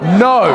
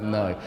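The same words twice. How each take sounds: First: It is said loudly, with strong force. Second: It is said softly, with little force. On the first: The speaker calls it right. "It's like no" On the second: The speaker calls it wrong. "it wouldn't be like no"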